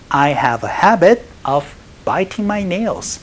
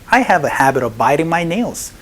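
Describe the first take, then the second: First: The t in biting is a clear t. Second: The t in biting is a soft flap.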